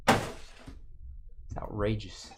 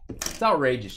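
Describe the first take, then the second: First: Breathy whisper, slow and drawn out; whispered mock outrage. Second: Said in the usual way. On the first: Host whispering mock outrage at a departing viewer. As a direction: hush it like a scandalous secret. Viewer leaving after Cubs card.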